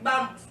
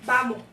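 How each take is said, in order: First: The final s is pronounced fully as an s. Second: The final s is relaxed into a breathy h. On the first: "En vez de decir vamos" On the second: "hay una aspiración. O también cuando decimos vamos"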